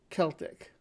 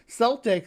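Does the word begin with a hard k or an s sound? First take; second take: hard k; s sound. First: The word begins with a hard k sound. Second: The word begins with a soft s sound. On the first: This follows the original spelling with a K. "which denotes that it should have a hard k sound" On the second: This is the name of a basketball team. "Celtic is a basketball team"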